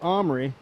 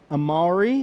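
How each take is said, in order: First: The name is said in two syllables. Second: The name is said in three syllables. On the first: This is how he says his own name. The speaker calls it right. "like two syllables" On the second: This is the French way to say it. The speaker calls it wrong. "that's the French pronunciation"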